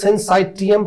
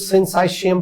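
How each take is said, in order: First: The third syllable has a t sound. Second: The third syllable has an sh sound. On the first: "कुछ people pronounce करते हैं सिंसाइटियम" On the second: "कुछ सिंसाइशियम pronounce कर लेते हैं"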